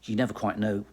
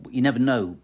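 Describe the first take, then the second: First: Said in the usual way. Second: Never punched louder with a fall; stress on never. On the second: Real, not acted. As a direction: hit the word never hard. Repeated with emphasis.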